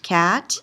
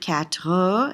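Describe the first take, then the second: First: The word is said quickly and clipped. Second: The word is said slowly and drawn out. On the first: "if you say it fast"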